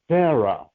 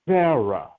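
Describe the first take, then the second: First: The name begins with an s sound. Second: The same.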